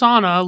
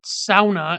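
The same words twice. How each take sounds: First: It is pronounced the common non-Finnish way. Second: It is pronounced the Finnish way. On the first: The speaker calls it wrong. "It's not pronounced sauna like it is everywhere else in the world" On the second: The speaker calls it right. "the Finnish pronounce it sauna, and so do Yoopers"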